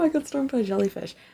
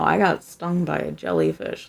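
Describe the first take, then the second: First: It is said lightly, as if unimportant. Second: It is said gravely, as if very important. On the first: The event was a minor mishap. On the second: The event was severe and painful.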